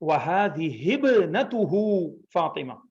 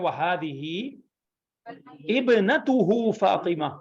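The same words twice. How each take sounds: First: The words run together, with the glottal stop dropped. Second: The words are said separately, with the glottal stop. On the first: "मिला के पढ़ें ज़्यादा बेहतर है... हे को बे में मिला दें" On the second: "अलग-अलग पढ़ना है तो बोलें"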